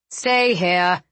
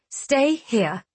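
First: Sternly voiced command; firm order. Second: Lightly mimicking an order; mocking echo. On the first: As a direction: give it as a measured order. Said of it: "he ordered". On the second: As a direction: toss the command back in mild mockery. Riel echoing Tal's order, alone. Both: A narrator's reading.

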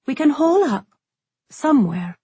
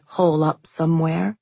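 First: Higher, lightly voiced resigned girl; resigned young woman. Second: Said in the usual way. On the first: A narrator's reading. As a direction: say it like hiding is the only choice. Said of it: "tone final and shoulders sagging".

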